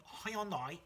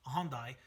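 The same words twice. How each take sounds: First: Hyundai said "hai-on-dai", pitched higher; three-syllable Hyundai. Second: Hyundai said slowly as "hahn-dai"; two-syllable Hyundai. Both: Real, not acted. Tries two pronunciations of brand.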